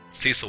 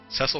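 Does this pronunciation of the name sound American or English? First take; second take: American; English. First: The name is pronounced the American way. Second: The name is pronounced the English way. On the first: The person would be from America. "would be from America" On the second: The person would be from England. "sounds like it would be if they were from England"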